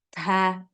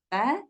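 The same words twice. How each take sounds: First: A strong puff of breath follows the consonant. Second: A light puff of breath follows the consonant. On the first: The speaker calls it wrong. "nggak perlu seperti itu" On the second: The speaker calls it right. "Sedikit aja keluar nafas"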